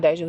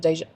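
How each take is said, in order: First: Deja said the wrong way, the name she keeps slipping on; the mistaken take of Deja; mispronounced Deja. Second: Fix the name and say Deja properly; the corrected take of Deja. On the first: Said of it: "it is not Deja". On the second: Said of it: "it is not Deja, it's Deja". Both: Shown as a demonstration.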